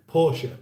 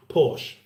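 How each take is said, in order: First: Porsche in two syllables, final e sounded; German pronunciation. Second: Porsche as one syllable, silent final e; British pronunciation. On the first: Host shows how they say it over there, German pronunciation. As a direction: say Porsche like "POR-shuh". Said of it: "is that how they say it there". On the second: Host shows how Britain says the car name, British pronunciation. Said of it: "that's how we've always pronounced it here". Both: Shown as a demonstration.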